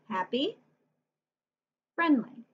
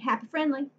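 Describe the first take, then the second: First: There is a pause between the two words. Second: The words run together without a pause.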